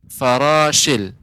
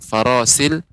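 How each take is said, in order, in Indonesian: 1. Konsonan di tengah adalah bunyi sh yang jelas. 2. Konsonan di tengah adalah bunyi s biasa. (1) "lebih diperjelas lagi pengucapan huruf shin" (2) "huruf shin masih belum belum tepat ya. Eh, Masih eh, seperti farasil"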